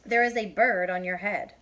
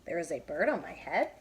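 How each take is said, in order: First: There is a bird on your head said as a calm statement, falling at the end; Piggy states it plainly, full stop; flat statement. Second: There is a bird on my head? rising up on head like a question; surprised question. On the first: Piggy telling Elephant, falling statement tune. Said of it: "There's a period". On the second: Elephant asking Piggy, rising question tune. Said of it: "There's a question mark". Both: Shown as a demonstration.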